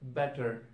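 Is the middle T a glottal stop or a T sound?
T sound. The middle T is pronounced as a T.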